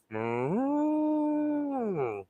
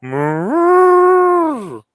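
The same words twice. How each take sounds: First: High, drawn-out moo; cow moo. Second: High, loud, drawn-out moo; loud cow moo. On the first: Owner showing the dog how to moo, high sing-song. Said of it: "Can you go". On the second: Owner showing the dog a louder moo, high and loud. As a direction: belt out a big moo. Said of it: "can you go". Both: Shown as a demonstration.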